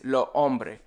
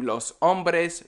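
First: "lo hombre" with both plural S sounds silent; dropped S. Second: Said in the usual way. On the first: Shown as a demonstration. Teacher showing how plurals sound, dropped S. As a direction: say "lo hombre", ending on an open e. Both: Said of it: "We just don't say the S".

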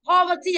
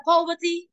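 First: "Poverty" with a short open o, POV-uh-tee. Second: "poverty" with a long o, POH-vuh-tee. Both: Shown as a demonstration. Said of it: "đọc là gì".

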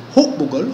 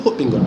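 First: Said in the usual way. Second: Hukbingol with nasal bing in the middle; Fula variant form. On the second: Shown as a demonstration. Teacher showing class variant hukbingol, nasal middle. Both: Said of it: "We can also say hukbingol".

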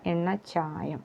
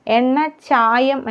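First: എണ്ണച്ചായം short and much softer; correct form. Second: എണ്ണച്ചായം stretched and higher, as a mistake; wrong form. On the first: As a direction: drop to a quiet correction on എണ്ണച്ചായം. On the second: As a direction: hold up എണ്ണച്ചായം as what not to say. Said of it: "എന്നല്ല". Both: Shown as a demonstration.

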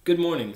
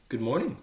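First: Higher, louder good morning; lightly voiced fox calling out a greeting; fox's greeting. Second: Polite reply with a rising end; mildly polite good morning. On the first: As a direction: hail someone unseen, voice lifted. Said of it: "said the fox". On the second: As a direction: return the greeting courteously, lightly lifted. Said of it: "the little prince answered politely". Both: A narrator's reading.

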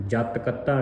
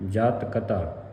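First: ਕਤਾ with doubled t, kat-ta; wrong pronunciation. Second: ਕਤਾ with a single light t; light ka-taa for ਕਤਾ; soft pronunciation. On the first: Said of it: "ਨਹੀਂ ਪੜ੍ਹਨਾ". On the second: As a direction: keep the ਤ of ਕਤਾ undoubled. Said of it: "ਅਧਿਕ ਤੋਂ ਰਹਿਤ ਪੜ੍ਹਨਾ ਹੈ ਤੇ ਪੋਲਾ". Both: Shown as a demonstration.

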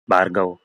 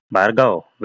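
First: The program begging its maker, understated; pleading call. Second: "Bhargav" called out short and firm, falling at the end; a boss summoning him, blunt and direct; curt call. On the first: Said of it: "దీనంగా అడిగాడు". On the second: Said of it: "సూటిగా అడిగాడు". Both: A narrator's reading.

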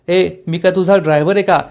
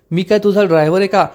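First: Mildly annoyed rhetorical question; irritated retort. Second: Indignant question, mildly acted anger; angry retort. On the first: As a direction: snap back with slight annoyance. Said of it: "Dushyant चिडून म्हणतो". (हलक्या चिडीने) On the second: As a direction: demand it with some temper. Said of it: "तो चिडून म्हणतो". (रागाने, चिडून) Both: A narrator's reading.

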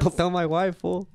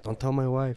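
First: Higher, hammed-up Mexican accent; exaggerated Mexican accent, breaking into a laugh; put-on Mexican accent. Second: Put-on lightly Mexican-accented quote; a hint of Mexican accent; accidental Mexican accent. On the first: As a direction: play up a mock Mexican accent. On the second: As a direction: slip into a slight Mexican accent. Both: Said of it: "I just sounded Mexican".

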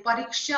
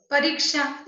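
First: Said in the usual way. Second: परीक्षा with a short middle i; wrong vowel length. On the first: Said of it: "होता है". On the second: Shown as a demonstration. Teacher showing a common mistake, परीक्षा with short i. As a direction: clip the long ee in परीक्षा to i. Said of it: "हम गलत लिखते हैं".

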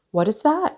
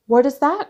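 First: High, rising question; asking. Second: High, louder rising question; startled cry. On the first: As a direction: ask it lightly on a high rise. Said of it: "asked Bridget". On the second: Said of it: "cried Bridget". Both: A narrator's reading.

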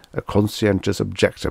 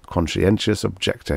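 First: Said in the usual way. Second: "Conscientious objector" spat out like something obscene; disgusted. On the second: A narrator's reading. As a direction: sneer "Conscientious objector" with revulsion. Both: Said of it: "exactly as if he had said the name of a sexual perversion".

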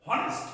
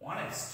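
First: Honest with the H sounded; honest said the wrong way; honest incorrectly, H pronounced; wrong pronunciation. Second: Honest with a silent H, softer; correct pronunciation. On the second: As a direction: say honest as ON-est. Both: Shown as a demonstration. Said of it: "this is wrong".

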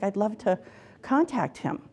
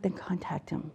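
First: Retold tearful client. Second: Very soft, near-whispered nudge; quietly prompt, as retold advice; retold gentle prompting. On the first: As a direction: gently imitate a client close to tears. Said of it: "And she was crying". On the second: Counsellor voices own soft reply.

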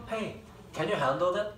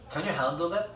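First: "Hey, can you handle that?" drawn out very slowly and softly, each word slurred together like a native. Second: Said in the usual way. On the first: Shown as a demonstration. Teacher demos a slurred native question to students. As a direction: stretch it slowly so students hear the linked sounds. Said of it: "잘 들어봐". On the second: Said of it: "이런 거야".

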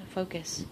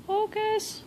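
First: Said in the usual way. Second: Pleading focus, pitched way up; high wheedling plea to the camera; high coaxing plea. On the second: Real, not acted. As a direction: beg the camera, sing-song high. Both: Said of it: "it's not gonna focus".

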